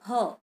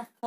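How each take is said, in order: First: फ said as PH, both lips and a puff; aspirated PH sound. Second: फ said as F, lip against teeth; alternative Urdu F sound. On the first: Teacher gives children the Sanskrit sound, aspirated फ. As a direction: give फ its aspirated P sound, not F. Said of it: "इसका उच्चारण होगा फ". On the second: Teacher shows the common variant, F pronunciation of फ. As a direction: say फ like the Urdu letter with a dot. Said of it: "इसका उच्चारण फ भी करते हैं". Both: Shown as a demonstration.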